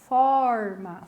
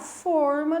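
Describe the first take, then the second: First: The stressed o is an open vowel. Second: The stressed o is a closed vowel. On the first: It means a shape or format. "com a vogal aberta, forma, falo com a vogal aberta" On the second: It means a baking pan. "Aqui é a forma de bolo"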